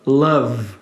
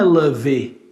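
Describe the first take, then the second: First: The word ends on a V sound. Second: The word ends with an added vowel sound. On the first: The speaker calls it right. "a palavra termina com V aqui" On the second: The speaker calls it wrong. "Não é love"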